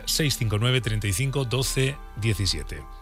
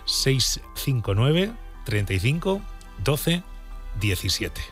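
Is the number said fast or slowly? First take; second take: fast; slowly. First: The number is said fast. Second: The number is said slowly.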